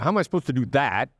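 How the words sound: It is said in an insulting, hostile tone. The listener is being insulted. The speaker calls it wrong. "my tone of voice insults you"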